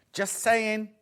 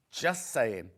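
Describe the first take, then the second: First: Light, raised playful nudge; teasing just saying. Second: Lower, dry knowing repeat; knowing aside. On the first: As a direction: tease the buyer with it. Teasing sales nudge repeated. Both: Real, not acted.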